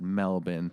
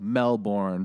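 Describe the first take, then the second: First: The name is said the way locals say it. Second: The name is sounded out the way it's spelled. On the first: "but they pronounce it Melbourne" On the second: "it's spelled Melbourne"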